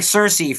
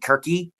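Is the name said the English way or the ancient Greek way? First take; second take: English; Greek. First: The name is said with English sounds. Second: The name is said with ancient Greek sounds. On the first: "the Anglicization" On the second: "the ancient Greek pronunciation"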